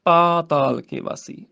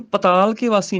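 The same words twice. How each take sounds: First: "ਪਾਤਾਲ" with long paa; long first vowel. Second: "ਪਤਾਲ" with short pa, said quickly; short first vowel. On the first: Teacher corrects it, "ਪਾਤਾਲ" with long paa. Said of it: "ਪੱਪੇ ਨੂੰ ਕੰਨਾ ਹੈਗਾ". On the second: Teacher shows the mistake, "ਪਤਾਲ" with short pa. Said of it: "ਪਤਾਲ ਕੇ ਵਾਸੀ ਨਹੀਂ ਕਹਿਣਾ". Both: Shown as a demonstration.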